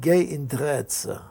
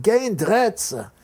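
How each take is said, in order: First: Slow defiance. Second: Higher, louder, slow repeat of the answer; louder defiance. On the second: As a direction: say it again, defiant and loud. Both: Retold or imitated. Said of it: "That was Dutch courage".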